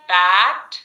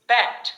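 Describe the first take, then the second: First: Bat with open æ, loud; a sound. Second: Bat with a wider eh; eh sound. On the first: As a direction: drop the jaw on Bat. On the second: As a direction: say bat as bet. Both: Shown as a demonstration. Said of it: "Repeat after me in the same tone".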